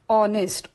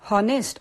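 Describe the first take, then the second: First: The word begins directly with a vowel sound. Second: The word begins with an audible h sound. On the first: The speaker calls it right. "सुरुवातीला ओ" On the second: The speaker calls it wrong. "हॉनेस्ट असा नसून"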